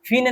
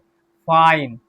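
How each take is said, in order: First: The vowel sounds like 'ee'. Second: The vowel sounds like 'eye'. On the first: The speaker calls it wrong. "फीने नहीं पढ़ेंगे" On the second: The speaker calls it right. "तो आई पढ़ते हैं"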